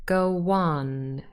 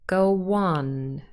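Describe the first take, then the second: First: A w sound smoothly links the two words. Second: A w sound smoothly links the two words.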